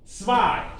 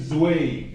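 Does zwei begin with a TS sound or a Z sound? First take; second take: TS sound; Z sound. First: The word begins with a TS sound. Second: The word begins with a plain Z sound. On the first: The speaker calls it right. "pronounce it T S" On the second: The speaker calls it wrong. "Don't say zwei. It's wrong totally"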